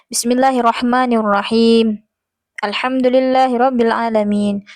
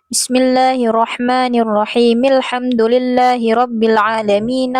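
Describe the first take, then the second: First: There is a pause between the two verses. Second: The two verses run together without a pause. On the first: The reciter stops at the end of each verse, as recommended. The speaker calls it right. "Tidak disambung" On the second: The verses are joined, which is not the recommended practice. The speaker calls it wrong. "Bagaimana cara wasal?"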